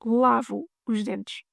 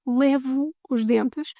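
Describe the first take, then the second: First: Lavo os dentes with an open a in lavo, slowly. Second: Levo os dentes with an open e in levo, slowly. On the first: Teacher shows the right phrase, lavo os dentes. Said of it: "I wash my teeth". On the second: Teacher shows the silly mix-up, levo os dentes. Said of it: "in case you say". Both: Shown as a demonstration.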